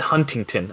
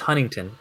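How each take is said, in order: First: The middle T sound is clearly pronounced. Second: The middle T sound is dropped. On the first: The speaker calls it wrong. "People call it Huntington. ... People pronounce that T" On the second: The speaker calls it right. "no, it's Huntington"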